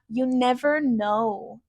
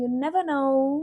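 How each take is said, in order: First: It is said in an American accent. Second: It is said in a British accent. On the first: "like an American would" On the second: "trying to keep that British pronunciation"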